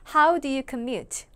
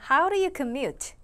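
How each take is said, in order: First: The d in 'do' is a full d. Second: The d in 'do' is a light tap.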